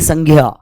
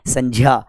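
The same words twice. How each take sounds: First: The cluster is said with a 'gy' sound. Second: The cluster is said with a 'j' sound. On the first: The speaker calls it wrong. "न कि संज्ञा" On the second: The speaker calls it right. "क्या है ये, संज्ञा"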